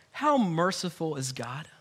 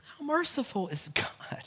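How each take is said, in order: First: Said in the usual way. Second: Whispered in awe. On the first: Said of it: "repeated line, second whispered". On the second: Real, not acted. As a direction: breathe the question, unvoiced. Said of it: "repeat whispered".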